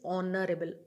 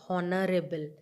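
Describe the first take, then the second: First: The word starts with a vowel sound. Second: The word starts with an h sound. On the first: The speaker calls it right. "It is honorable" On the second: The speaker calls it wrong. "I am not saying"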